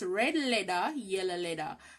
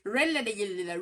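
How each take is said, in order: First: It is said at a slow, normal pace. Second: It is said quickly.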